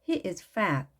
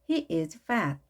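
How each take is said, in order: The two takes are said the same way.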